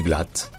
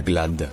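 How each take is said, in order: First: "glatt" ending on a crisp t; t final allemand. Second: "glad" ending on a voiced d; d final sonore. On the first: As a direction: say "glatt" German style, final d as t. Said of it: "se prononce te". (« glatt » à l'allemande, t final) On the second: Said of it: "donc ce n'est pas". (« glad » avec un d final sonore) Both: Shown as a demonstration.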